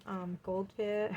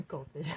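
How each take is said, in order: First: Said in the usual way. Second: Goldfish said through a laugh, lower. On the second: Real, not acted. Reader amused at the goldfish card, laughing. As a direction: chuckle out Goldfish.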